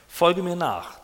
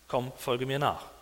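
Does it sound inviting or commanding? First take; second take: commanding; inviting. First: It sounds like a firm order. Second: It sounds like a friendly invitation.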